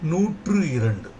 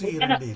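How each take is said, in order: First: The first word ends in an 'oo' vowel. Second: The first word ends in an 'ee' vowel. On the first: The speaker calls it right. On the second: The speaker calls it wrong. "நூற்றி இரண்டு இல்ல"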